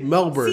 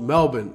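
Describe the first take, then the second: First: The r sound in the word is pronounced. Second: The r sound in the word is dropped. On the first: The speaker calls it wrong. "Don't say Melbourne" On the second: The speaker calls it right. "See, listen, it's called Melbourne"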